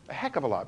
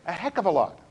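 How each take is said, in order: First: Softer echo of "heck of a lot", dropped low; quiet emphatic echo. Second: Said in the usual way. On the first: Shown as a demonstration. Teacher repeating a point softly for emphasis. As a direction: repeat it quietly, letting it sink in. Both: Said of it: "repeated for emphasis".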